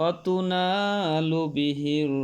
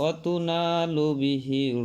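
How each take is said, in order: No difference in how they are said.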